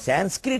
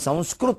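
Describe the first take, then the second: First: It is said the anglicized way, as Sanskrit. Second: It is said the native way, as Samskrit. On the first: This copies the English spelling of the name. The speaker calls it wrong. "మనం సాంస్క్రిట్ అనకూడదండి" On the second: This is the proper name of the language. The speaker calls it right. "దాన్ని సంస్కృత్ అనాలండి"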